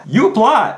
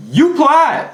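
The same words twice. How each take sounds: First: Said in the usual way. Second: You applied in a high Southern drawl; southern twang. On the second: Shown as a demonstration. Coach scolding viewers in a Southern twang. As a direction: lay on a Southern twang, pitch way up. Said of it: "That was my southern twang right there".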